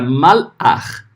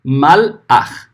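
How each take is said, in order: No difference in how they are said.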